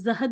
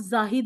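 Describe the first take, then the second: First: The first vowel is kept short. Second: The first vowel is lengthened. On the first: The speaker calls it wrong. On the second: The speaker calls it right.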